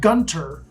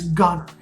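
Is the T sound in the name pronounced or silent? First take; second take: pronounced; silent. First: The T in the middle is pronounced. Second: The T in the middle is silent. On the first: The speaker is not from the area. The speaker calls it wrong. "you might call it Gunter, but you don't pronounce the T" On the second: The speaker is from the area. The speaker calls it right. "It's Gunter"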